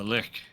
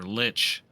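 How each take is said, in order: First: The word ends with a k sound. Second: The word ends with a ch sound. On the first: The speaker calls it wrong. "that just sounds really wrong" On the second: The speaker calls it right. "I always say lich"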